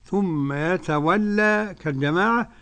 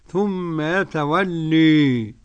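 First: The final vowel is an open a sound. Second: The final vowel is bent strongly toward e. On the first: "بالفتح ... كالجماعة" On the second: "بالإمالة الكبرى"

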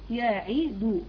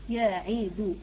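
First: The vowel after the d is given full length. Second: The vowel after the d is given full length.

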